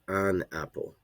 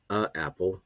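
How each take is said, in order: First: An n sound links the article to apple. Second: Two vowels meet with no n between them. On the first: The speaker calls it right. "we say an apple" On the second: The speaker calls it wrong. "we don't say a apple"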